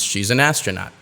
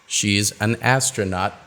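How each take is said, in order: First: The words flow together in one stream. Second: The words are said separately.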